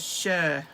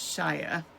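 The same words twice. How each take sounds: First: It sounds unlike the Shire in The Hobbit. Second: It sounds like the Shire in The Hobbit. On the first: The speaker calls it right. "we pronounce it as Shire" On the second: The speaker calls it wrong. "we don't pronounce it as Shire, like The Hobbit"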